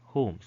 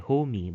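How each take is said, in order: First: The final E is silent, one syllable. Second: The final E is sounded as an extra syllable. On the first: The speaker calls it right. "but rather home" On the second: The speaker calls it wrong. "You don't say homey"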